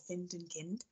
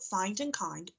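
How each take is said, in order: First: The words are said with an odd, spelled-out vowel. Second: The words are said with their normal vowel sounds.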